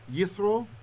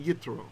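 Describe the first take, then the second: First: The middle consonant is a th sound. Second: The middle consonant is a t sound. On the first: This follows the ancient Hebrew pronunciation. "you might notice I'm pronouncing it as a th" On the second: This is the reading of the letter with a dot. "if there were a dot, we'd say yitro"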